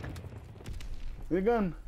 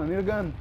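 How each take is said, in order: First: Slow, soft whisper; a whispered, drawn-out plea for a gun. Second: Said in the usual way. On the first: Shown as a demonstration. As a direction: breathe it out, almost defeated. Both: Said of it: "repeating the line in new ways".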